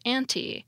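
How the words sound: It is said with a British pronunciation. "British English preferences are found ... in the pronunciation of anti"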